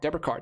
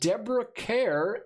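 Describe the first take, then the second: First: The surname sounds like the word 'car'. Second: The surname does not sound like 'car'. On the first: The speaker calls it right. "is actually pronounced like car" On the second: The speaker calls it wrong. "I'm probably saying that wrong"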